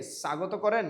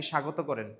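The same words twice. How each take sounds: First: "স্বাগত" as sagoto, louder; wrong s variant. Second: "স্বাগত" as shagoto; correct sh variant. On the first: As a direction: hiss a dental s to start "স্বাগত". ("স্বাগত" দন্ত স দিয়ে সাগতো) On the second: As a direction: start "স্বাগত" with a palatal sh. ("স্বাগত" তালব্য শ দিয়ে শাগতো) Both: Shown as a demonstration. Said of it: "স্বাগতর উচ্চারণটা কি আপনি".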